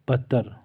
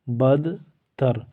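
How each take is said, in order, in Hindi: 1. d, t में मिल जाता है और एक ही आवाज़ बनती है। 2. d और t दोनों अलग-अलग बोले जाते हैं।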